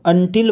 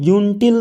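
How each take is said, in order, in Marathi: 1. हा शब्द 'uh' आवाजाने सुरू होतो. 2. हा शब्द 'you' आवाजाने सुरू होतो. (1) "अंटील वाचायचं" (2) "युनटील नाही वाचायचं"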